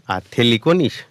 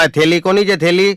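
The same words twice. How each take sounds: First: Said in the usual way. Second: High, loud yelled question; shouting to the whole bus. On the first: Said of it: "એટલે મેં બીજી વાર પૂછ્યું". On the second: Retold or imitated. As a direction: bellow it across the bus. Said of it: "મેં જોશથી રાડ પાડી".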